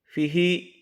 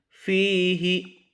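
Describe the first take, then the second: First: The first vowel is said short. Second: The first vowel is said long. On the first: The speaker calls it wrong. "Jangan dibaca fihi" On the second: The speaker calls it right. "Seharusnya fihi"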